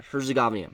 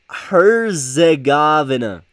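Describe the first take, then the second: First: Said in the usual way. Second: Herzegovina drawn out slowly and loudly; slow, emphatic struggle through the name; labored pronunciation. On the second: Real, not acted. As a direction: stretch out every syllable, higher and louder. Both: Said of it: "I've always had difficult".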